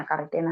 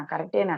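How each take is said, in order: First: A soft unvoiced whisper, fading away; whispered disbelief. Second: Said in the usual way. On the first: A mother whispering, unable to believe her son's message. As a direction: breathe the question out, almost to herself.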